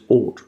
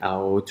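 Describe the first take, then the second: First: The vowel is a single aw sound. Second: The vowel is an ow sound, as in out. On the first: The speaker calls it right. "but it's just ought" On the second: The speaker calls it wrong. "You might be tempted to say something like out"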